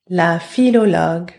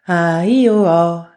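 First: The words are said with all their consonants. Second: Only the vowel sounds are said, consonants dropped. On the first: "I'm going to say it with the consonants and then without the consonants" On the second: "Removing the consonants"

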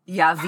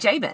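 First: The name begins with a Y sound. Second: The name begins with a J sound. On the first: This is the Hebrew pronunciation. "his name in Hebrew is Yavin" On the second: This is the familiar English pronunciation. "but I'm going to say Jabin"

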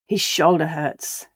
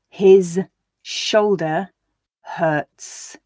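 First: The words are said quickly, run together. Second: The words are said slowly, one by one. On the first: "and then at a natural pace for you to repeat" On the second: "I'll read each sentence once slowly so you can hear the individual words"

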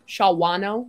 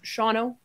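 First: The name is said with three full syllables. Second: The name is rolled together into two syllables. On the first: The speaker calls it wrong. "somebody pronounce this. And Shawano. And I'm like, no" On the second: The speaker calls it right. "Just let it roll. Just Shawno. That's it"

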